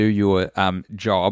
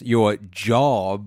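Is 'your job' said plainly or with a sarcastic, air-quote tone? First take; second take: plain; sarcastic. First: It is said plainly, with no audible irony. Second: It is said with an audible sarcastic, air-quote tone. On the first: "I'm doing air quotes. You can't catch that in audio" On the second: "You could, if I said it like this"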